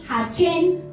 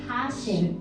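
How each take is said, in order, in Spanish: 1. La consonante del medio es un sonido 'ch'. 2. La consonante del medio es un sonido 'sh'. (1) "para que no digamos Hachen, ¿no? Porque no es C H" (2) "sino Hashem"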